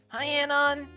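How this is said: It is said with a creaky, fried voice.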